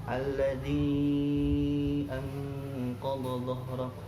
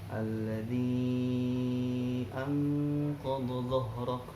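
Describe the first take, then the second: No difference in how they are said.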